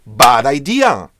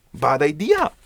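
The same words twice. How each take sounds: First: Loud, slow, stern verdict; emphatic warning. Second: Said in the usual way. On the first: Shown as a demonstration. Teacher warning students about asking friends, loud and slow. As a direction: slam it down as a firm no.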